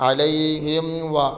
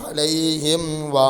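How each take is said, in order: Both takes have the same delivery.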